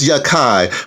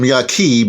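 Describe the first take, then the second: First: The name ends with an 'eye' sound. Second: The name ends with an 'ee' sound. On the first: This is the name's proper pronunciation. "it's pronounced Yakai" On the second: This is what people commonly call him. "everybody calls him Yaki"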